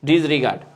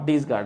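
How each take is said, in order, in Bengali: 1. মাঝের syllable 're' উচ্চারণ করা হয়। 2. মাঝের সিলেবল 're' বাদ যায়। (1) "ওটা আমি উচ্চারণ ভুল করতেছিলাম" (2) "নট ডিসগার্ড"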